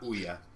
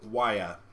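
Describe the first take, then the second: First: The word begins with an oo vowel. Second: The word begins with a W sound. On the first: The speaker calls it wrong. "not Ouya" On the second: The speaker calls it right. "O U makes a W sound"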